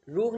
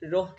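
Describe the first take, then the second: First: The vowel sounds like oo. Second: The vowel sounds like oh. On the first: The speaker calls it wrong. "रूह नहीं कह देना" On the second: The speaker calls it right. "रोह कहना है"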